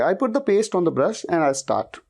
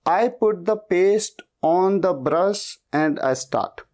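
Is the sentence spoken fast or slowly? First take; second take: fast; slowly. First: The sentence is spoken fast. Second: The sentence is spoken slowly. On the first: The speaker has practised the sentence for days. "Speed में बोलोगे" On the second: The speaker is still learning the sentence. "शुरुआत में ... शायद आप ऐसे बोलोगे"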